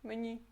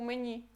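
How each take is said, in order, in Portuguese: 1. A vogal final soa entre i e u. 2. A vogal final soa entre i e u.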